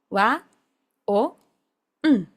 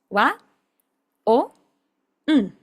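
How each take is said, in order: Both takes have the same delivery.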